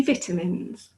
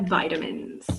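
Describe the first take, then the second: First: "vitamins" with a short first I; British pronunciation. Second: "vitamins" with a long I; American pronunciation. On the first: Teacher shows the English way, "vitamins" starting like "vit". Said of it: "these in England would be". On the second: British teacher imitates Americans, "vitamins" starting like "vy". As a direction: say "vitamins" as "VY-duh-mins". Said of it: "but here they're". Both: Shown as a demonstration.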